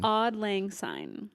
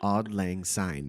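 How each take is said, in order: First: Slow copy of "Auld Lang Syne" with a rising end; slow repetition. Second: Slow, careful "Auld Lang Syne" with each word separated; careful pronunciation. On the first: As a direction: echo "Auld Lang Syne" slowly back. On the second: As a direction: spell out "Auld Lang Syne" slowly for her. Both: Shown as a demonstration. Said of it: "Wait, say it again".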